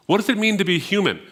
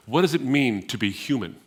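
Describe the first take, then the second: First: "What does it mean to be human?" repeated much higher and louder, leaning hard on "it"; emphatic repeat. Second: Said in the usual way. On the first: Shown as a demonstration. Preacher repeating the question to the congregation for emphasis, higher and louder. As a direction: fire "What does it mean to be human?" back at them, pitched up and loud, hitting "it".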